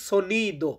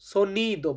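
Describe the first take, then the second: First: The first vowel sounds like 'o'. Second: The first vowel sounds like 'o'.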